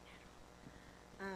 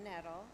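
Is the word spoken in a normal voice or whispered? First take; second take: whispered; normal. First: The word is spoken in a whisper. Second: The word is spoken in a normal voice.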